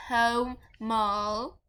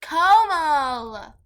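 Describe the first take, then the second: First: "Komal" split slowly into "Ko" and "mal"; deliberate syllables. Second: "Komal" called out loud and long; loud, exaggerated "Komal"; emphatic name call. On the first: Shown as a demonstration. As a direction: sound out "Komal" one slow syllable at a time. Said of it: "I said Komal". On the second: Real, not acted. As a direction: call "Komal" loudly with stretched vowels.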